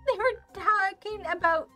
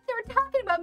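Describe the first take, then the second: First: The voice is pitched lower. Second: The voice is pitched higher. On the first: The speaker calls it wrong. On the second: The speaker calls it right.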